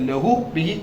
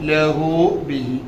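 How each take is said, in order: First: The final vowels are short. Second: The final vowels are drawn out a little. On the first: The speaker calls it wrong. "അങ്ങനെയല്ല" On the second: The speaker calls it right. "കുറച്ച് നീട്ടി പറയട്ടോ"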